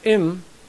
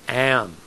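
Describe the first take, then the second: First: The vowel is not an open ah sound. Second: The vowel is an open ah sound. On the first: The speaker calls it wrong. "Not im" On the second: The speaker calls it right.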